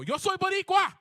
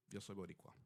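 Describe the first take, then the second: First: Very high, very loud proud shout; defiant shout. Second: Soft, low, inward statement; quiet realization. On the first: Retold or imitated. Storyteller shouts back at the screaming girl. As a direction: hurl it back at her with pride. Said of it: "and I just go". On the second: Real, not acted. Alone at the bus stop, quietly claiming his identity. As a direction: say it to yourself, settled and sure. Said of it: "I sit down and I realize".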